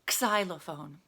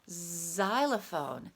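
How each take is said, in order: First: The word begins with a ks sound. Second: The word begins with a z sound. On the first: The speaker calls it wrong. "No, that's not how we say it, is it?" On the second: The speaker calls it right. "It sounds like a Z in this word"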